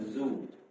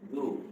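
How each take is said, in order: First: The syllable begins with a z sound. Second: The syllable begins with a d-like sound. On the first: The speaker calls it wrong. "bukan zu" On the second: The speaker calls it right. "du bukan zu"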